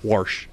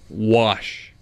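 First: The word is said with an R sound. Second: The word is said without an R sound. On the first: The speaker calls it wrong. "Not warsh" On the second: The speaker calls it right. "there's no R in the word"

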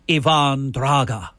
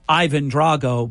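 First: The surname ends with a drawn-out 'ah' sound. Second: The surname ends with a plain 'oh' sound. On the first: This is a mock Russian way of saying the name. "go full-blown Ruski and say Ivan Draga. Like, draw the A out, not the O" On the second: This is the usual way people say the name. "He is Ivan Drago"

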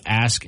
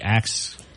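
First: The word ends with an s then k sound. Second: The word ends with a k then s sound. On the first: "Instead of ask" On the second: "it'd be ax. ... It's more of a regional thing"

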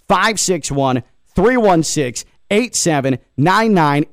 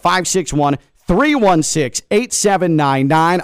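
First: The number is said more slowly. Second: The number is said at normal, faster speed.

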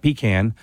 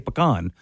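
First: The first syllable sounds like 'pee'. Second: The first syllable does not sound like 'pee'. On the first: This is not the local way to say it. The speaker calls it wrong. "not pecan. That's what my grandpa put in the car for a long road trip" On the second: This is the local way to say it. The speaker calls it right. "in Louisiana, we say pecan"

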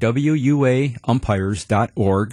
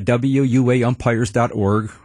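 First: It is said slowly and carefully. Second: It is said at normal speed.

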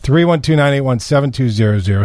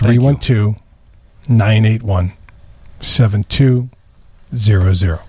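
First: The number is said fast. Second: The number is said slowly.

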